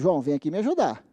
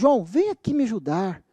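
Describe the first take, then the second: First: It sounds like gentle, recommending advice. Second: It sounds like desperate, begging pleading. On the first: Helping is being recommended to the listener. "Em termos de conselho" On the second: The listener is being begged to help. "Em tom de súplica"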